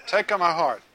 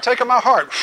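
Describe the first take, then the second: First: Said in the usual way. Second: Raised, louder mock plea of the crowd; eager plea. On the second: Preacher mimicking people pleading with God, eager mock plea. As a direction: beg to be chosen, hammed up.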